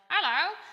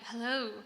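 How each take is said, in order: First: It is said in a squawky, parrot-like voice. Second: It is said in a plain, human-like voice. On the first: "the way a parrot would be like hello" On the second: "it sounds like a human"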